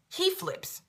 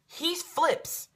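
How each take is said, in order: First: "He flips" repeated very high and almost whispered; breathless. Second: "He flips" raised high in disbelief; mild exclaim. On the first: Stunned repeat about the guy flipping, very high and breathy. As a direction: hiss "He flips" high and airy. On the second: Telling how the guy flipped out, high and incredulous. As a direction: say "He flips" high, then repeat it higher and breathless. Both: Shown as a demonstration.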